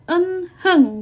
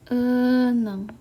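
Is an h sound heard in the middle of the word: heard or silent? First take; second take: heard; silent. First: The middle h sound is pronounced. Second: The middle h sound is dropped. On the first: "kalau kita hanya melihat dari cara bacanya atau huruf hanggulnya" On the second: "karena H tidak dianggap"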